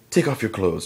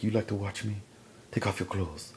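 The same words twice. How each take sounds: First: Higher, forceful order; acted command. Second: Acted soft command. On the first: Woman ordering the intruder to strip, mock stern. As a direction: give a sharp retold order. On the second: Woman toying with the man she caught, hushed. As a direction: say it quietly, as a come-on.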